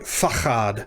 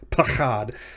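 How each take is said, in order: First: The word begins with an f sound. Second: The word begins with a p sound. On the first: The word follows the word for and. "if it is following the word and ... it will be pronounced f" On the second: The word does not follow the word for and. "if it weren't following the word and, then it would be pronounced pachad"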